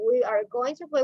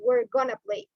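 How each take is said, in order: First: Every word is said fully and separately. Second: The words are shortened and run together. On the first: "instead of saying we are going to play" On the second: "we say we're gonna play"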